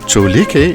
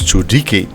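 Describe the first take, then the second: First: The middle consonant is an l sound. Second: The middle consonant is a d sound. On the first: The speaker calls it wrong. "is not pronounced with an L" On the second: The speaker calls it right. "but with a D, so it's pronounced as Chudiki"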